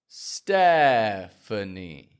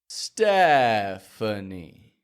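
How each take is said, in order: No difference in how they are said.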